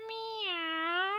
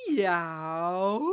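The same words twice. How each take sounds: First: Soft, small trying meow; puppy's first meow. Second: Long, low model meow; demo meow. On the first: Acted. Puppy Lenny finally meowing softly. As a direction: attempt a shy meow. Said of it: "Yes, that's it". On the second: Shown as a demonstration. Teacher showing Lenny just how to meow. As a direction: draw the meow out gently. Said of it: "Just like this".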